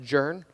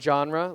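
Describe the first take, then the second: First: It is said as one syllable, 'jern'. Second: It is said with the usual 'zhahn-ruh' sound. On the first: The speaker calls it wrong. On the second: The speaker calls it right.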